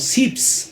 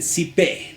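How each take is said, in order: First: It is one clipped syllable ending in s. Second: It is two syllables ending in an e sound. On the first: This is how people from La Paz say it. "nosotros los paseños generalmente decimos sips" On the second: This is how people in Peru say it. "En el lado de Perú dicen sipe"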